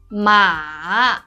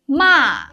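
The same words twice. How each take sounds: First: The pitch falls first and then rises. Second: The pitch falls sharply from high. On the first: It means horse. "It's a falling, rising tone" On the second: It means scold. "a sharp falling tone"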